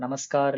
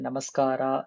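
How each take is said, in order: First: The word ends on a bare r sound. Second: The word ends on a plain a vowel. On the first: "நமஸ்கார் இல்ல நமஸ்காரா அது மாரி தேவையில்ல" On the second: "நமஸ்கார் இல்ல நமஸ்காரா அது மாரி தேவையில்ல"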